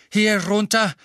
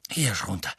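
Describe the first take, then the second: First: Loud, high breathless call; panting shout. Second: Out of breath. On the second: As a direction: gasp it out, winded. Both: A narrator's reading. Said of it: "keuchte Mister Weasley".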